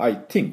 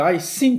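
First: The th is said like a t sound. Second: The th is said like an s sound. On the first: It still means having an opinion. The speaker calls it right. "T で言ってしまう。 これ実はいいんです。" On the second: It means going under water. The speaker calls it wrong. "って言っちゃダメですね。 すると沈んじゃう。"

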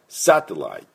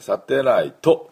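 First: The word ends on a consonant sound. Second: The word ends with an added vowel sound. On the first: The speaker calls it right. "こういう音になります。ここをO をつけてはいけない" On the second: The speaker calls it wrong. "サテライトって言ってはいけないですね"

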